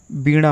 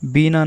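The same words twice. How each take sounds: First: बीणा with a retroflex ण; बीणा with a flapped ṇ; correct pronunciation. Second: बीना with a dental n; tongue on the teeth in बीना; बीना said with plain न; wrong pronunciation. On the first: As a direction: curl the tongue back in बीणा. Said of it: "बीणा होता है". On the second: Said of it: "बीना नहीं". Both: Shown as a demonstration.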